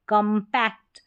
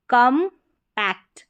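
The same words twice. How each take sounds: First: Said in the usual way. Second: compact slowly as kam, pause, pact; slow teaching split of compact; split into syllables. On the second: Shown as a demonstration. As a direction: sound out compact in two louder, separated parts. Teacher splits word, then blends.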